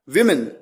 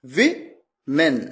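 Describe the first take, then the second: First: Said in the usual way. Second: वीमेन drawn out slowly, each syllable clear; teacher sounding out वीमेन slowly; slow pronunciation demo. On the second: Shown as a demonstration. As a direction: stretch वीमेन out slowly for the learner. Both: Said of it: "मैंने कहा विमेन".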